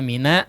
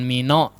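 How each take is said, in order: First: The vowel after n sounds open, like 'a'. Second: The vowel after n sounds rounded, like 'o'. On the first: The speaker calls it right. "huruf nunnya coba diperjelas fathahnya" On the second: The speaker calls it wrong. "Jangan mino"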